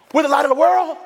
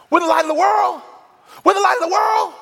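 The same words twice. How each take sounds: First: High, rising, astonished question; as if it just dawned on him; amazed question. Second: Higher and louder, rising to a shout; swelling from realisation to a joyful shout; building excitement. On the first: Robert reading the Bible, stunned by the verse. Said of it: "Robert looks up and he says". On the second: Robert grasping the verse, getting louder and thrilled. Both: Retold or imitated.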